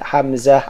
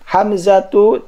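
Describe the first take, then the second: First: The name ends in a soft '-ah' sound. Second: The name ends in '-atu' without nasal ending. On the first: The word is read in pausal form. "Ini saya baca wakaf dulu ya" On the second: The word carries its full case ending. "tidak ditanwin"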